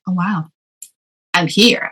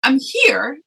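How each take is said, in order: First: Understated retold wonder; humbled realization. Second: High-pitched mock crying voice; retold tearful wail. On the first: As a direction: let it sink in, near your usual pitch. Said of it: "extremely humble and proud to realize". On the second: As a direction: play back a tearful phone call. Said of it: "And I'm crying".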